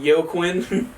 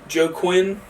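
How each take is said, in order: First: The name begins with a Y sound. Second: The name begins with a J sound. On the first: This is how some other people say it. "some people call it Yo, uh, call him Yo Quinn" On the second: This is how the speaker personally says it. "I just say Joe uh, Joe Quinn Phoenix. That's how I pronounce it"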